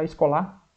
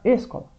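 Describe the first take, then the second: First: The stress is on the last syllable. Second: The stress is on the first syllable. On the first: "não é o lá mais forte? Não, senão ia ficar escolar" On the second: "mas não é o ESO mais forte? Não, vai ficar escola"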